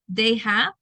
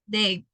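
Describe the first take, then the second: First: Both words are said fully and separately. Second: The two words merge into one short syllable.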